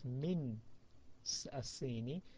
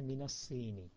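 First: Min ends in a bare n, with no added vowel. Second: Min takes an added a vowel, joining the words. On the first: The speaker calls it wrong. "instead of min asini" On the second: The speaker calls it right. "then min becomes mina"

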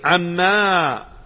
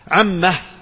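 First: The word ends on a long vowel. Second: The word ends with an added h sound. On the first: "قراءة ابن كثير عما بالمد" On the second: "والثالثة وهي هاء السكت"

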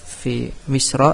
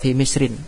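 First: The word ends in a short -a, no nasal ending. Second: The word ends in -in, with a nasal ending. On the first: The name is treated as a noun that does not take nunation. "Kalau kita baca fi Misra mamnu' minasharfi" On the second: The name is treated as a noun that takes nunation. "Kalau kita baca fi Misrin munsharif"

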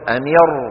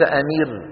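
First: The r sound is heavy and velarized. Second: The r sound is light and thin. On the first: The speaker calls it right. "أمير وليس أمير" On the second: The speaker calls it wrong. "وليس أمير"

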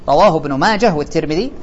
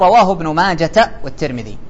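First: The name ends with an h sound. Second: The name ends with a t sound. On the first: The speaker calls it right. "آخره هاء، حتى لو حركت" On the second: The speaker calls it wrong. "فما تقول"

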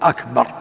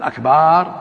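First: The vowel after the b is short. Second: The vowel after the b is drawn out long. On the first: It means greater. The speaker calls it right. "لا يمد الباء يقول أكبر يعني أعظم" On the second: It means drums. The speaker calls it wrong. "أما إذا قال أكبر هذا جمع كبر كبر طبل"

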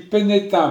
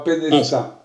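First: The name is said without an S sound. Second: The name is said with an S sound. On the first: The speaker calls it right. "On dit Plénestin" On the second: The speaker calls it wrong. "pas Plénestin"

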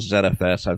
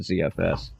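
First: The letter Z is pronounced 'zed'. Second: The letter Z is pronounced 'zee'.

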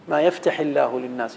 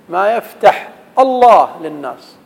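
First: The verb ends with an i vowel linking. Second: The verb ends silent, with no i vowel. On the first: The speaker calls it right. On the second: The speaker calls it wrong.

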